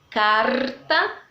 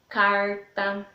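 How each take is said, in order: First: It is said in a gaúcho southern accent. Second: It is said in a rural caipira accent. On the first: "Lá no Rio Grande do Sul o R é bem mais puxado" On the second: "O sotaque caipira é aquele que puxa bem o R"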